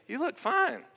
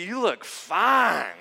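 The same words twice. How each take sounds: First: It is said flatly, with little warmth. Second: It is said warmly, with admiring emphasis. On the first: The outfit is merely acceptable. The speaker calls it wrong. "And I say" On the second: The person looks beautiful. The speaker calls it right. "Maybe if I had said it like this"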